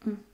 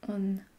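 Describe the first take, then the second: First: The N sound is not pronounced. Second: The N sound is clearly pronounced. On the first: The speaker calls it right. "it's mm. No N in this sound" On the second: The speaker calls it wrong. "You should not pronounce the N, so it's not on"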